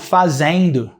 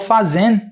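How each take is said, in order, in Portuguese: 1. O final é completo, com uma vogal parecida com ditongo. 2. O final é cortado, parando no n. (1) "Em São Paulo, ... Como se fosse um ditongo ali" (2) "eu corto o final... eu termino no N"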